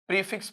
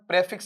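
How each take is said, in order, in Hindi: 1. पहला स्वर 'ee' जैसा बोला जाता है, जैसे 'pree'। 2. पहला स्वर 'eh' जैसा बोला जाता है, जैसे 'preh'। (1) "प्रीफिक्स पढ़ेंगे" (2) "इसका उच्चारण प्रेफिक्स नहीं पढ़ेंगे"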